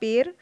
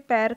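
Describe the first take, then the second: First: The vowel is the closer sound 'e'. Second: The vowel is the open sound 'ai'. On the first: This is the Khari Boli dialect form. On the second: This is the standard form.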